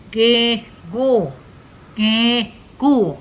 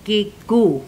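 First: Pinched nose, blocked nasal sound; holding nose. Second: Said in the usual way. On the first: Shown as a demonstration. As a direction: say it with your nose held shut. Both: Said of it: "Hold your nose and say".

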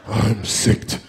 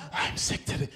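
First: Sick voice. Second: Weak breathy whisper; whispered sick voice. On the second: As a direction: whisper it like you're dying. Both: Shown as a demonstration. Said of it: "rehearse your whole sick voice".

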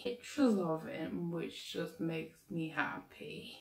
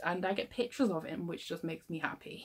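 First: Slow, soft, lovestruck repeat; dreamy swoon. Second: Said in the usual way. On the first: Acted. To her viewers about her crush Marco, slow dreamy swoon. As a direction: sigh it out like you're daydreaming about him.

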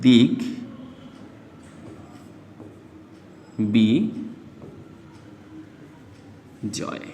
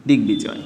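First: "দিক বি জয়" as dik, bi, joy with long pauses; syllable by syllable. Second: Said in the usual way. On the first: Shown as a demonstration. Teacher showing how the b is pronounced, syllable by syllable. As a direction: break "দিক বি জয়" into three separate syllables. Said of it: "বর উচ্চারণটা করি তাহলে উচ্চারিত হবে". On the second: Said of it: "তাহলে উচ্চারিত হবে".

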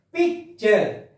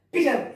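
First: PICTURE with a clear k and stop, "pic-ture"; stop inside word. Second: PICTURE said quickly as "pitcher", no k; run together without stop. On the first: Teacher showing pupils the stop in picture, broken in two. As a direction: halt after pic, then finish PICTURE. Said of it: "There is a stop here". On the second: Teacher showing pupils what they don't say, run together. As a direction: join PICTURE up as "pi-cher", no break. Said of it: "You are not telling like that". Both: Shown as a demonstration.

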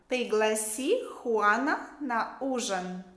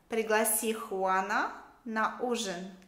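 Both takes have the same delivery.

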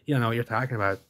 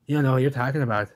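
First: Said in the usual way. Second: Emphatic retort. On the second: Shown as a demonstration. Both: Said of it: "repeated louder, faster".

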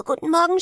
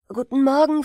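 First: "guten Morgen" höher und laut gerufen. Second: Lauter freudiger Gruß; "Guten Morgen" laut rufen; gerufen. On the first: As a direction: den zweiten Gruß noch höher rufen. (Brüder grüßen die Schwester, höher gerufen) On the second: (Brüder rufen dem Vater zu, laut) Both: Acted. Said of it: "riefen die drei Brüder".

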